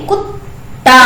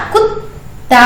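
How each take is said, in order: First: कुत्ता said as कुताः without the half त; wrong way. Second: कुत्ता with the half त stopped mid-word; right way. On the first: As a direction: say कुत्ता as कुता, no stop. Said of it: "कुत्ता नहीं बोलेंगे". (गलत उच्चारण: कुता) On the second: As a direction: break कुत्ता at the half letter. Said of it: "आधा बीच में रुक गया ना". (सही उच्चारण: कुत्ता) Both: Shown as a demonstration.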